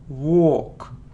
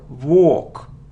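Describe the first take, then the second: No difference in how they are said.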